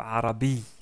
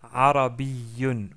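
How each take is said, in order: First: The word ends without a final -un sound. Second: The word ends with a final -un sound. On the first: The speaker stops on the word. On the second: The word continues into the sentence.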